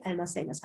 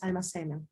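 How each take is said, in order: First: "almacenas" read with a final s sound, as the slide's typo; misread verb ending. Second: "almacenan" read with a final n sound, as corrected; corrected verb ending. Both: Shown as a demonstration. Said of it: "por favor lo cambien".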